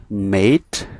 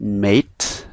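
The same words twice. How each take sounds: No difference in how they are said.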